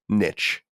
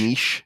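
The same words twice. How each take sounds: First: It is said with an anglicized pronunciation. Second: It is said with a French-style pronunciation. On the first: The speaker calls it right. "because that's how you say it in in English" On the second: The speaker calls it wrong. "not niche, because we're not speaking French"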